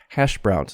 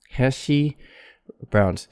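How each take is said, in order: First: The sh sound ends cleanly without a vowel. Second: An extra ee vowel follows the sh sound. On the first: The speaker calls it right. "So keep your tongue curled up for sh" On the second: The speaker calls it wrong. "Don't make a flat tongue like he"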